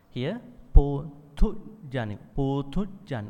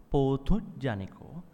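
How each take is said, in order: First: "potujjaniku" slow and loud, heavy emphasis; overdone aspirate. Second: "potujjaniku" slower, light breathy emphasis; gentle aspirate. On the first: Teacher shows an exaggerated potujjaniku. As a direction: stress "potujjaniku" too hard. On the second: Teacher models the right potujjaniku. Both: Shown as a demonstration. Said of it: "not potujjaniku".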